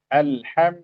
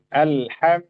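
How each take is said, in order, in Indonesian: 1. Bunyi L mengalir sedikit sebelum berhenti. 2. Bunyi L mengalir sedikit sebelum berhenti.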